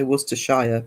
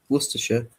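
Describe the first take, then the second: First: Worcestershire with the end said as "shire", like the word shire; full spelling-style Worcestershire. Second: Worcestershire said as "WUSS-tuh-shuh", three clipped syllables; correct Worcestershire. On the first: Streamer imitating how some people say it, ending in "shire". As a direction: say Worcestershire the long way, rhyming its end with "fire". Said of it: "some people say Worcestershire".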